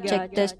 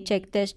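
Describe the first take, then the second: First: The voice has a heavy echo. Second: The voice has only a light echo. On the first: "Terus ini echo di arah jam tiga" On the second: "Ini arah jam sebelas, echonya kayak gini"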